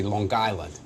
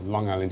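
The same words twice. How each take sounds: First: "Island" run on from "Long" as "Guyland"; Long Island accent. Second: Said in the usual way. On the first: Shown as a demonstration. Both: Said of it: "they say".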